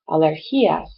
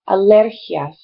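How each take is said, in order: First: The stress is not on the second syllable. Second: The stress is on the second syllable. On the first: The speaker calls it wrong. "We want to say it alergias, because that's more like how we pronounce it" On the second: The speaker calls it right. "So the stress is different. It's on the second syllable"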